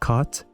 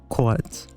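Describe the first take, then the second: First: The vowel sounds identical to the vowel in cot. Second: The vowel is rounder and distinct from cot. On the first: This is how Californians say it. "I pronounce both of them as cot" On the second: This is how other parts of the United States say it. "the second one would be pronounced like quat"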